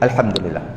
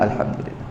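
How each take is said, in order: First: It is said loudly. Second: It is said quietly.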